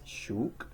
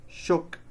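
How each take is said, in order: First: "shook" with a long, tense oo; mispronounced long oo. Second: "Shook" with a short, lax oo; correct short oo. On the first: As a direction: stretch "shook" to rhyme with Luke. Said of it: "The mistake". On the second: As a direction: clip the vowel of "Shook" as in book. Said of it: "proper pronunciations". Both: Shown as a demonstration.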